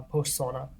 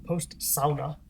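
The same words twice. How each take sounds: First: Said in the usual way. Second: Sauna said SOW-na, rhyming with now, slowly; slow Finnish-style sauna with an ow sound; mimicking how Ahti says sauna, SOW-na. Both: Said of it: "as he would say".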